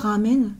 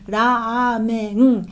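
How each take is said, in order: First: The first vowel is kept short. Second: The first vowel is held long. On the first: This is the pronunciation adopted into French. "peut-être que c'est rentré dans le langage français" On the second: This is the Japanese pronunciation. "prononciation japonaise, normalement c'est ramen. On allonge le A"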